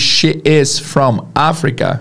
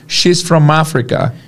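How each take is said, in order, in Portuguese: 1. As palavras são ditas separadamente. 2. O m se junta à vogal seguinte. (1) "ao invés de" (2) "essa letra M vai se juntar com a vogal que vem depois"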